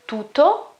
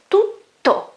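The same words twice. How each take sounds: First: "tutto" mispronounced as "tuto", with a short middle t; "tutto" with no pause on the double consonant; single T. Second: "tutto" with a strong, held tt; "tut-to", double consonant stretched and stronger; long double T. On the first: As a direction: run through the middle of "tutto" without holding the tt. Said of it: "It's not tutto". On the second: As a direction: hold the middle tt of "tutto", then release it hard. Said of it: "which is stronger and it is also longer". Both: Shown as a demonstration.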